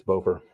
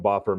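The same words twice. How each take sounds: First: Bofer said BOH-fer, long o as in "go". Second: Boffer said BOFF-er, short o as in "off". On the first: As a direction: say Bofer with a long rounded o, like "loafer". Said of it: "I always called him Boffer". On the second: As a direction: say Boffer with a short open o, like "coffer". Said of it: "Maybe it's Bofer". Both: Shown as a demonstration.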